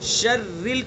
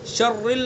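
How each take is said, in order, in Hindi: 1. r हल्का और पतला है। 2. r भारी और भरा हुआ है। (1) "शर्रिल की रा को बारीक पढ़ेंगे" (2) "शर्रिल नहीं पढ़ेंगे इसको"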